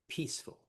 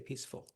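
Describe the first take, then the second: First: The stress is on the first syllable. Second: The stress is on the second syllable. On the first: The speaker calls it right. "the stress is on the first syllable. Like these" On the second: The speaker calls it wrong. "We don't say peaceful"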